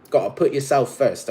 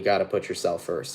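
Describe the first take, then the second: First: Put-on British accent. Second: Said in the usual way. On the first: Tarot reader urging Cancers to self-priority, British accent. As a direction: slip into playful British English. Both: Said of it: "talking in a British accent".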